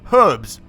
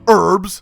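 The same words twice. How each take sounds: First: The word begins with an audible h sound. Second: The word begins without an h sound. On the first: The speaker calls it right. "I'm saying it correctly" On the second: The speaker calls it wrong. "not herbs. Americans, fix your shit"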